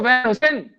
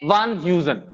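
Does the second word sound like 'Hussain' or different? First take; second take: Hussain; different. First: The second word is said like Hussain. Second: The second word is not said like Hussain.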